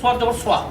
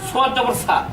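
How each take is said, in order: First: The syllable is a rounded, heavy 'swa'. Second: The syllable is a plain, open 'sa'. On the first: The speaker calls it right. "সোয়াতের সঠিক উচ্চারণটা হচ্ছে" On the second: The speaker calls it wrong. "এভাবে উচ্চারণ করলে কোনো ক্রমেই বিশুদ্ধ উচ্চারণ সম্ভব নয়"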